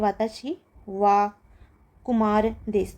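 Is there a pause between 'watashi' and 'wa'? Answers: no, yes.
yes. A break separates 'watashi' from 'wa'. The speaker calls it wrong. "तो ये गलत है"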